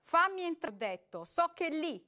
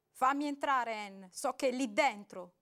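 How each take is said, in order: First: Angry loud demand, much higher; Robert growling at the door; growled. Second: Loud demand to be let in; man shouting at the ex behind the door; shouted. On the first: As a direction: snarl the order at her. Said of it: "ringhiò Robert". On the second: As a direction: yell it at the door. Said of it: "gridò". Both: A narrator's reading.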